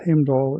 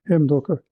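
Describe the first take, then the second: First: The name is said the English way, without final r. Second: The name is said the Old Norse way, with final r. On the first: "which is often called Heimdall in English" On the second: "the actual Old Norse pronunciation or Icelandic pronunciation would be Heimdallr"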